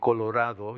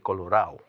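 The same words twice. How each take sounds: First: The d before the final o is pronounced. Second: The d before the final o is dropped. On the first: "instead of saying Colorado" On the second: "drop the D's"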